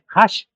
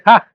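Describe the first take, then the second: First: The name ends in a sh sound. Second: The name ends in a hard g sound. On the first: This is how many people say it now. The speaker calls it wrong. "ya se pronuncia así mucho" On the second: This is the name's real pronunciation. The speaker calls it right. "es realmente"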